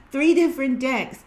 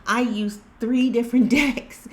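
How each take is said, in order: First: Three different decks, higher and louder, each word pressed; emphatic repeat. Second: Words broken by a real laugh, pitch up. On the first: Vlogger to viewers, stressing three different decks. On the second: Vlogger to viewers, laughing at the same message. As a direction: laugh it out in disbelief. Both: Real, not acted.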